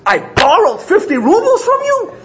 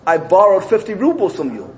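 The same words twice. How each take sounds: First: The voice is raised and loud. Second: The voice is calm and at normal volume. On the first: It sounds like an indignant denial. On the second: It is a plain admission.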